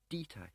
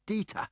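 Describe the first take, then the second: First: Softer, anguished call of the name; cry of anguish. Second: High, loud desperate cry of a name; desperate shout. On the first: Smiley calls into the fog after falling Dieter, anguished. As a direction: call down after him, heartbroken. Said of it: "he cried, in anguish". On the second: Smiley, winded, shouts desperately at Dieter. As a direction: yell it with the last breath you have. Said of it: "he shouted desperately". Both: A narrator's reading.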